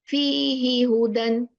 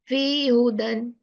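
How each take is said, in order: First: The h in the first word is clearly pronounced. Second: The h in the first word is dropped. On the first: The speaker calls it right. "the right pronunciation is fihi hudan" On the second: The speaker calls it wrong. "It's not fi hudan. We are not allowed to remove any letter"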